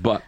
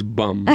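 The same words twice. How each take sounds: First: "but" with a short clipped t, the wrong take; wrong word "but". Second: "bum" ending on a closed m; correct word "bum". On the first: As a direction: say "but", not "bum". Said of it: "it's not". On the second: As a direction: say "bum" with the lips shut at the end. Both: Shown as a demonstration.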